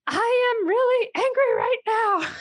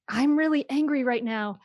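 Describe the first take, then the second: First: Much higher and louder retold yell; yelled anger. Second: Lightly raised, half-hearted yell; mild mock yell. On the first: Mother reenacts yelling her anger at her daughter, loud yell. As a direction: shout it as you did at the door. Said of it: "but I yelled". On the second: Mother explains naming anger to her child, mild mock yell. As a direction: quote the shout without fully shouting. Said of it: "But to be able to yell".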